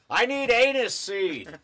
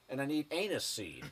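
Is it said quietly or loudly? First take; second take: loudly; quietly. First: It is said in a loud, booming voice. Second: It is said at a normal, quiet volume.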